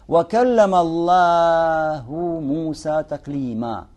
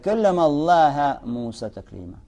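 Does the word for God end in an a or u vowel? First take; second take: u; a. First: The word for God ends in a u vowel. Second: The word for God ends in an a vowel. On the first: God is the one who spoke to Moses. The speaker calls it right. "И говорил Аллах с Мусой, ведя с ним беседу" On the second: Moses is the one who spoke to God. The speaker calls it wrong. "Человек не знает иараб, читает"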